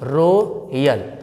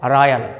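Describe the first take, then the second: First: The first vowel sounds like 'oh'. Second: The first vowel sounds like 'aw'. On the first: The speaker calls it wrong. "अब बोल क्या रहते हैं कुछ लोग" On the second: The speaker calls it right. "लेकिन रोयल नहीं"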